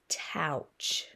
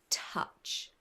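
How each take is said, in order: First: The vowel sounds like ow, as in cow. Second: The vowel sounds like uh, as in cup. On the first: The speaker calls it wrong. "Let's see if we can use our ow" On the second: The speaker calls it right. "sound it out now using an ah sound"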